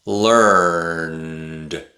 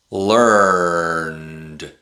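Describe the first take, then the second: No difference in how they are said.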